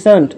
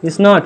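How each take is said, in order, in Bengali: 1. এটি একটি সংকুচিত শব্দ হিসেবে বলা হয়। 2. এটি দুটি আলাদা পূর্ণ শব্দ হিসেবে বলা হয়।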